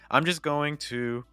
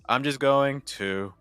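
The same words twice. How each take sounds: First: The pitch stays up through the phrase. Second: The pitch drops through the phrase. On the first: The speaker calls it right. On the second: The speaker calls it wrong.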